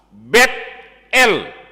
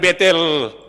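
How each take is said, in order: First: The name is split into two separate parts. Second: The name is run together as one word. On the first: The speaker calls it right. "Betel artinya bait Allah" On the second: The speaker calls it wrong. "Bukan Betel"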